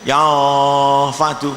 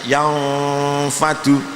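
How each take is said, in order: First: The mouth gapes open and the f is weak. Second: The f is made crisply with lip and teeth. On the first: The speaker calls it wrong. "seringnya anggar melongo ya fadu" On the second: The speaker calls it right. "fa kan harus bibirnya nempel"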